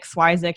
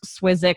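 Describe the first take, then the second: First: "Swizik" with a long i, SWY-zik; "Swizik" opening like "swipe"; usual family pronunciation. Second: "Swizik" with a short i, SWIZ-ik; "Swizik" with both vowels short; alternative pronunciation. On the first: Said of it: "that's what I tell people". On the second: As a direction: say "Swizik" to rhyme with physic. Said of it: "I would go". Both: Shown as a demonstration.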